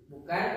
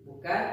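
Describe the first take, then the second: Both takes have the same delivery.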